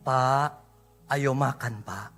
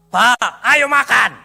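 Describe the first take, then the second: First: It is said in a soft, gentle tone. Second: It is said in a hard, harsh tone. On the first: The speaker lovingly invites someone to eat. The speaker calls it right. "lembut bu" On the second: The speaker curtly orders someone to eat. The speaker calls it wrong. "Kalimat yang sama dengan tekanan yang berbeda"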